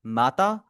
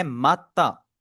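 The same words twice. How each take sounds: First: Said in the usual way. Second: माता with the t held and doubled. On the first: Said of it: "next आपका लिखा हुआ है माता". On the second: Shown as a demonstration. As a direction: pause on the t in माता, then release. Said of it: "टी हमारा double है". (माता में ट को दो बार बोलें)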